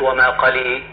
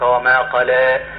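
First: The final vowel leans strongly toward 'ee'. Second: The final vowel leans only slightly toward 'ee'. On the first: The speaker calls it wrong. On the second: The speaker calls it right.

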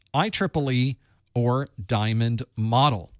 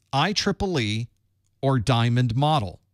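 The two takes are said the same way.

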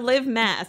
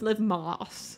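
First: The last name has the vowel of 'mass'. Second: The last name has the vowel of 'moss'. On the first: The speaker calls it wrong. "is not Liv Mass" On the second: The speaker calls it right. "It's Liv Moss"

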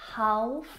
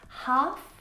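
First: The L sound is pronounced in the word. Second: The L sound is silent in the word. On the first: The speaker calls it wrong. "not half" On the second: The speaker calls it right. "words that have a silent letter L in them"

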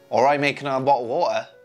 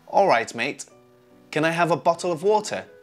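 First: Several sounds are dropped and the words run together. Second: Every sound is fully and carefully pronounced.

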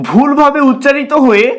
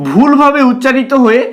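Both takes have the same delivery.

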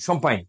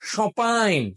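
First: French vowels with an m sound. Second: French vowels with no m sound. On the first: "হঠাৎ বলছে লোকালি শম্পাইন" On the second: "real যারা ফরাসি তারা এই এম উচ্চারণ করবে না"

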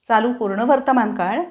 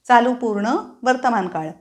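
No difference in how they are said.

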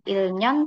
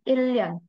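First: The middle consonant sounds like n. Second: The middle consonant sounds like l. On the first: The speaker calls it wrong. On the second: The speaker calls it right. "tapi 1년. kalau Ria ketemu sama Nian, dua-duanya dibaca Ria"

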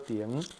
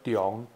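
First: It is given the colloquial reading. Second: It is given the literary reading. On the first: It is the everyday reading used by ordinary speakers. "即个白读读作重" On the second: It is the formal reading used in official names. "伊伫文读音内底，伊念作重"

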